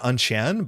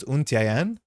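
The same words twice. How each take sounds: First: Untian as un-shan; merged syllables. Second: Untian as oon-tee-ai-en; separated syllables. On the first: Streamer showing what to avoid, squashed Untian. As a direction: run Untian together into two syllables. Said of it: "It's not Untian". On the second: Streamer settling on a name, careful Untian. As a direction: give Untian all its syllables, slower. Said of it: "So it's Untian". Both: Shown as a demonstration.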